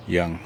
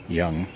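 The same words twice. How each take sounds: The two takes are said the same way.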